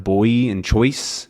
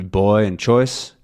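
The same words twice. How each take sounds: First: Said in the usual way. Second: Put-on BOY and CHOICE with the end of the OI lightened; lighter OI. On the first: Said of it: "instead of boy and choice". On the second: Shown as a demonstration. Teacher contrasting Southern oi for learners, lighter glide. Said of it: "It could be".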